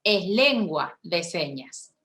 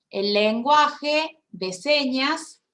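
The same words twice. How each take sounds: First: "lengua" stressed, slow and falling; correct term stressed. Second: "lenguaje" drawn out slowly with a rise; mocking wrong term. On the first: Shown as a demonstration. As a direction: set "lengua de señas" down slowly as the right term. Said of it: "no, no es lenguaje de señas". ("lengua" acentuada, lenta y descendente) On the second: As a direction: stretch "el lenguaje de señas" slowly as the common mistake. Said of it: "no, están equivocados". (decir "lenguaje" lento y alargado, como error ajeno)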